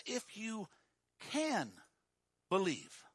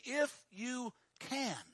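First: If you "can" believe, a gentle lift on "can"; stress on can. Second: "If you can" drawn out slowly, each word weighed; slow down and lean on "If you can"; slow stress on can. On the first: Pastor reading the verse to the congregation, "can" lightly lifted. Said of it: "It says". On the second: Pastor driving home the verse, slow weighted "If you can". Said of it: "It is very simply". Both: Shown as a demonstration.

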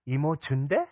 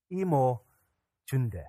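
First: IMO CHUNDE asked with rising pitch at the end; hopeful child's question. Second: Unhurried statement with a falling end; lightly voiced reassuring mother; motherly reassurance. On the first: Retold or imitated. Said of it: "Elise stopped crying, and she said". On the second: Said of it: "in her motherly wisdom".

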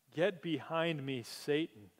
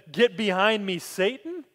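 First: Said in the usual way. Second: Louder, sharper rebuke; stern rebuke. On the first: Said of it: "he turned and said to Peter". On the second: Retold or imitated. Jesus rebuking Peter, louder and stern. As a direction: hit Satan hard as a reproof. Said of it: "he looks at me and he says".

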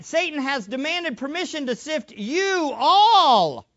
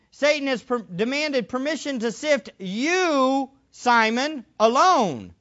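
First: "you all" stretched out and punched; stress on YOU ALL. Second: Single out "you, Simon, alone"; stress on singular YOU. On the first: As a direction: widen it with a long, strong "all". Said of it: "It's actually plural". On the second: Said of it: "He's not saying". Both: Shown as a demonstration.

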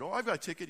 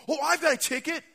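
First: Said in the usual way. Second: High, loud excited claim; eager announcement. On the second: Acted. Packers fan to the angel at the gate, loud and eager. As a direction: announce it proudly at high pitch.

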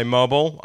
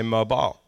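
First: MOBILE as MO-bul; low-pitched American "MO-bul". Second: MOBILE as MO-bile; low-pitched British "MO-bile". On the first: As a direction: swallow the end of mobile to "bl". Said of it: "You would say mobile". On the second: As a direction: end mobile like "mile". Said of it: "I would say mobile". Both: Shown as a demonstration.

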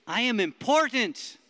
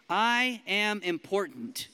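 First: Loud declaration. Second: Said in the usual way. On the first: Shown as a demonstration. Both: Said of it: "say 'em like you believe them".

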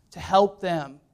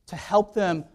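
The two takes are said the same way.

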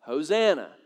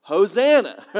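First: "Hosanna" said the English way, ho-ZAN-na, falling; plain English "Hosanna", stress on the second syllable. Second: "Hosanna" as the Greek word, louder, a punchline. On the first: Preacher shows the congregation how English says it, "Hosanna" ho-ZAN-na. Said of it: "we say". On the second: Preacher reveals the Greek word, "Hosanna" said loud as a joke. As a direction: land "Hosanna" loud with a falling tune. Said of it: "the Greek word for Hosanna is". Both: Shown as a demonstration.

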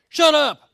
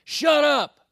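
First: A much louder, higher yell; playing the fed-up dad who wants to yell too; mock yell. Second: Put-on a kid's sharp yell, high and loud; mimicking a daughter snapping at her sibling; imitated yell. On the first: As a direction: blurt it out like an exasperated parent. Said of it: "I wanted to turn around and be like". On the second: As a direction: bark it like a bossy big sister. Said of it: "turns around to my youngest and says".

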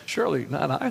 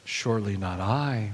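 First: Rising, pleading question on I; hopeful questioning. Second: Low, falling on I, a lower Judas voice; Judas, the betrayer, answers with a low falling I; flat denial. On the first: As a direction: disciples ask sadly, surely not I rising. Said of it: "very sad and began to say". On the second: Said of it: "Judas, the one who would betray him, said". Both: A narrator's reading.

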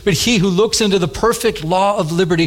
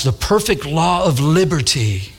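First: Said in the usual way. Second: "The perfect law of liberty" slowly, relishing the sound; savored phrase. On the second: Shown as a demonstration. Preacher savoring how "The perfect law of liberty" sounds, slow relish. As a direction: linger over each word of "The perfect law of liberty". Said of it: "don't you like how that, that, that sounds?".

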